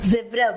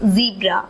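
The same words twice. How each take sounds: First: Said with a British English accent. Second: Said with an American English accent. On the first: "British English" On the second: "American English"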